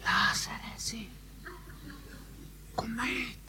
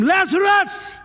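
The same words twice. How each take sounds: First: Soft unvoiced whisper of the command. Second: A high, loud commanding call by name. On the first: Shown as a demonstration. Preacher mocking a timid call to Lazarus, whisper. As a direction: hush it as if afraid to be heard. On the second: Acted. Preacher voicing Jesus calling Lazarus from the tomb, loud call. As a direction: summon him out of the tomb. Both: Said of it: "Oh, and he didn't whisper it".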